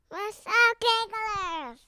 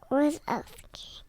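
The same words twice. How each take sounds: First: It is said louder. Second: It is said at normal, quieter volume.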